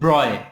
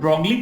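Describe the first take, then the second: First: The name is said as one syllable, 'broy'. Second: The name is said with a hard g and ending 'lee'. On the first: The speaker calls it right. "But it is pronounced as ब्रॉय" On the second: The speaker calls it wrong. "Pronounce करने में ब्रॉगली किया जा सकता है"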